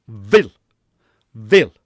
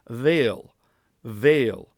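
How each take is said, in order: First: "vil" short vowel, louder, punched; "vil" hit hard, short clipped i; Gaelic vil with oomph. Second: Said in the usual way. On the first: Shown as a demonstration. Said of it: "more oomph behind it". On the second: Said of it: "listen to the difference".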